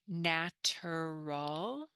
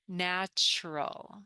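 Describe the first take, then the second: First: The middle syllable is said with a plain t. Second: The middle syllable is said with a ch sound. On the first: The speaker calls it wrong. "instead of saying natural" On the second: The speaker calls it right. "the ter becomes chur"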